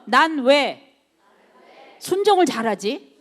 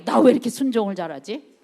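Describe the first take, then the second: First: Said in the usual way. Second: A touch of wonder at your own obedience, rising at the end; mildly surprised at oneself. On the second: Shown as a demonstration. Preacher showing the congregation how to be amazed at themselves, mildly surprised. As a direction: marvel lightly at yourself, as if catching yourself doing well. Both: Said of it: "좀 깜짝 놀라요, 스스로에게".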